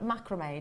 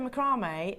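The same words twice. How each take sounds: First: It is said with an American pronunciation. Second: It is said with a British pronunciation.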